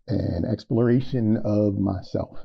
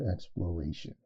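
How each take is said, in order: First: "exploration" slurred, syllables blurred together; fumbled word. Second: "exploration" said again quietly and clearly; softly retry "exploration", every syllable clean; careful redo. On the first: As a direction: trip over "exploration", mumbling its middle. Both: Real, not acted. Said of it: "I really messed up that word".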